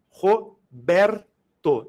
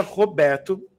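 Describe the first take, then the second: First: "Roberto" split into three slow beats, Ro, ber, to; syllable by syllable. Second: Said in the usual way. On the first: Shown as a demonstration. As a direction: break "Roberto" into separate syllables with clear pauses. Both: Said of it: "três emissões sonoras".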